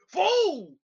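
It is said in a gruff, tough put-on voice.

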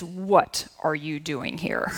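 It sounds stern and scolding, like a mom.

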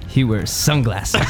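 It is said in a put-on character voice.

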